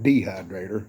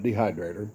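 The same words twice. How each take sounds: First: The first syllable is strongly emphasized. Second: The first syllable is not emphasized. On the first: It is the hillbilly way of saying it. The speaker calls it right. "You got to emphasize that first syllable" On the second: It is the ordinary way of saying it. The speaker calls it wrong. "not dehydrator"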